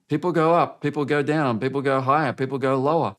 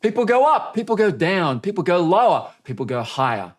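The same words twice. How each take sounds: First: Said in the usual way. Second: Going up in pitch on the varied take. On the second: Shown as a demonstration. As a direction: swing the voice around the words. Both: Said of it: "That's not as interesting as".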